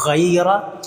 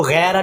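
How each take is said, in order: First: गैरा with a proper throaty ghain; correct reading. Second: The mistaken गैरा; wrong reading. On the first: Teacher giving the right sound. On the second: Teacher showing the error to avoid. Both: Shown as a demonstration. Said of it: "इसको गैरा नहीं पढ़ना".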